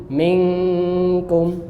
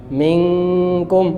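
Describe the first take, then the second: The two takes are said the same way.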